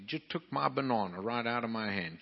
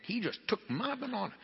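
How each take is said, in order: First: Said in the usual way. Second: Much higher, in amused disbelief; amazed retelling. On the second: Retold or imitated. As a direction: squeak it out like you can't believe it.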